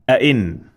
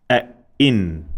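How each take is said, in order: First: Said in the usual way. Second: "a, in" with a stressed, doubled hamza; "a, in" split by a firm glottal catch; double sound with emphasis. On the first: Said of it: "Now double sound of". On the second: Shown as a demonstration. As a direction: stop hard after "a", then a drawn-out "in". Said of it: "Double sound of kasra with emphasis".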